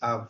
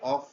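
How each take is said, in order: First: The word ends with a v sound. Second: The word ends with an f sound. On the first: The speaker calls it right. "এটার উচ্চারণ হবে আভ, এটা ভি এর মতো উচ্চারণ হবে" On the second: The speaker calls it wrong. "আমরা এটাকে অফ উচ্চারণ করি, এটা টোটালি একটি ভুল উচ্চারণ"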